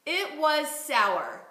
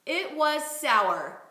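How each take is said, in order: First: "It was sour" again very slowly, word by word; slow repeated model phrase. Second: "It was sour" said very slowly and clearly; slow model phrase. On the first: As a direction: echo the model slowly and evenly. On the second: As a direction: lay it out slowly for the student to copy. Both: Shown as a demonstration. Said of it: "let's say".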